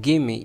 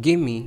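No difference in how they are said.

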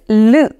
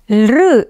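First: It is a single vowel-like L sound. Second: An L consonant is followed by an R vowel. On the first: The speaker calls it right. "this is a vowel by itself and the correct pronunciation of this letter is L" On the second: The speaker calls it wrong. "Lr is the wrong pronunciation of this letter. Lr is a combination of the consonant L with the vowel R"

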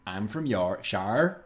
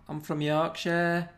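First: It is said in a Somerset accent. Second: It is said in a Liverpool accent. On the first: "No, that's Somerset" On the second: "That's kind of Liverpool"

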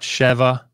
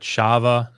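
First: The vowel is short, in the ordinary form. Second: The vowel is long, in the pausal form. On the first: This is the ordinary, non-pausal form. "Notice this is not Sheva" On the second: The word stands at a major pause in the verse. "is making this a pausal form. So it's making it a long vowel"

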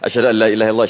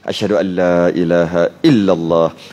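First: The phrase is recited quickly. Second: The phrase is recited slowly and calmly. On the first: The speaker calls it wrong. "Laju-laju kan?" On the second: The speaker calls it right. "Kalau baca slow-slow relax je"

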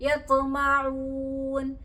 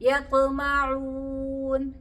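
Both takes have the same delivery.

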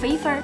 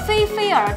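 First: The word is said in Sichuanese pronunciation. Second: The word is said in standard Mandarin pronunciation.

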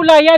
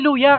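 First: The first vowel sounds like 'a'. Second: The first vowel sounds like 'u'. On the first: The speaker calls it wrong. "Hindi po laya" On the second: The speaker calls it right. "luya kanya"

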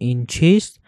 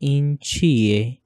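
First: The last word is said in full as chist. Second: The last word is said in reduced form as chiye. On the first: This is the written form used for reading. "पढ़ने के लिए अ, हम अ, इस्तेमाल कर रहे हैं" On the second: This is the everyday spoken form. "असल ज़िंदगी में किसी से बात करेंगे तो हम कहेंगे"

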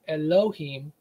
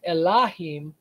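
First: The middle vowel is a rounded 'oh' sound. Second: The middle vowel is an open 'ah' sound. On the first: This is the later pronunciation. "later on they started pronouncing it with an O sound" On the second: This is the original older pronunciation. "it would be originally pronounced Elahim"

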